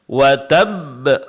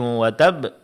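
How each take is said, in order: First: The final b is released with strong pressure. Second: The final b is released lightly, without pressure. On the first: Two identical silent b letters are read. The speaker calls it right. "ketika kita berikan penekanan" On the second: Only one silent b letter is read. The speaker calls it wrong. "ini berarti kita membaca satu huruf ba yang sukun"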